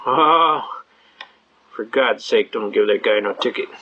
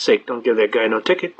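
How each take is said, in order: First: Low, gravelly-free deep mock cop voice; gruff cop. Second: Low mock sergeant voice dropping on ticket. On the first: Regular cop waving off a ticket, low mock voice. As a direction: drop low like a fed-up cop. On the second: Sergeant on the radio telling his officer, low mock voice. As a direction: growl it down like a weary sergeant.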